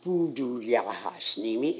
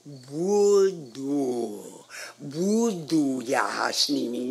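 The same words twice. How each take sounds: First: "Voodoo" said with a P sound, as the mistaken take; wrong pronunciation. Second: "Voodoo" said with a clear B, slow and deliberate; correct pronunciation. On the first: Teacher quotes the girl's mistaken "Voodoo" with a P. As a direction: say "Voodoo Yahasnimi" starting with a soft P, the way the student got it wrong. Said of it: "No, it's not". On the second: Piano teacher shows the girl the right "Voodoo" with a B, slowly. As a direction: correct her by saying "Voodoo. Voodoo Yahasnimi" with a firm B sound, slowly. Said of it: "No, it's not Voodoo Yahasnimi, it's".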